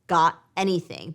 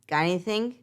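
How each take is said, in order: First: Each word is said separately and clearly. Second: The words run together without a break. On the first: "It sounds really different, right? Than just" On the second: "With linking, we say"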